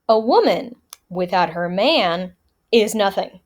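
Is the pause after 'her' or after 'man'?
after man. There is a pause after 'man'.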